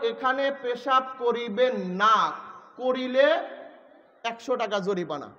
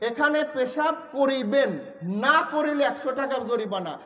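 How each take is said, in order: First: The pause comes after the word না. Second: The pause comes before the word না.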